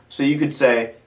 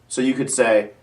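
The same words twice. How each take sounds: No difference in how they are said.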